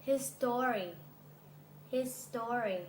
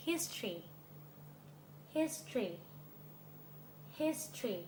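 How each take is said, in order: First: His story with a full STO-ry; three-syllable his story. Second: History as HIS-tree, high HIS falling away; two-syllable history. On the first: Teacher leads repeat-after-me, his story with strong STO-ry. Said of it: "ออกเสียงไม่เหมือนกันนะคะ". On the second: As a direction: model history with stress on HIS and no O. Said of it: "เดี๋ยวลองออกเสียงพร้อมกัน ตาม[name]นะ". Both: Shown as a demonstration.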